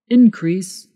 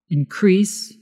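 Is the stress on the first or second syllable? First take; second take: first; second. First: The stress is on the first syllable. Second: The stress is on the second syllable. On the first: It is used as a noun. "Increase is the noun" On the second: It is used as a verb. "Increase is the verb"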